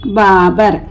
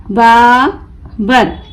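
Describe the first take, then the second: First: Said in the usual way. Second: Babar very slow, long बा, pause, बर; broken into syllables. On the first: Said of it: "मिलाकर पढ़ें". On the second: Shown as a demonstration. Teacher breaking the word for learners, Babar in slow pieces. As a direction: pull Babar apart into बा and बर. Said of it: "तोड़ तोड़ कर पढ़ूंगी".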